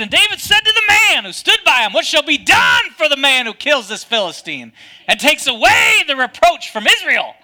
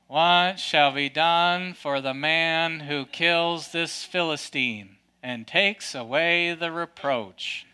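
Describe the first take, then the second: First: Much higher and louder, full of fight; bold defiant shout. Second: Low, slow, meek and hesitant; timid reading. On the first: Preacher showing David's real words as a bold defiant shout. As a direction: proclaim it like a warrior calling out the enemy. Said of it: "I think he said it like this". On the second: Preacher mocking how David usually gets read, timid and slow. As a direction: read it like a nervous mouse asking permission. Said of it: "it kinda sounds like". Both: Shown as a demonstration.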